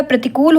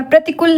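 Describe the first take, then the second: First: प्रतिकूल with a long oo; correct प्रतिकूल. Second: प्रतिकूल with a short u; wrong प्रतिकूल. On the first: Teacher corrects the vowel, प्रतिकूल with long oo. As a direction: stretch "kool" in प्रतिकूल. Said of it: "होता है". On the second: Teacher shows the misspelling, प्रतिकूल with short u. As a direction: clip the last vowel of प्रतिकूल to "kul". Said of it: "नहीं होता". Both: Shown as a demonstration.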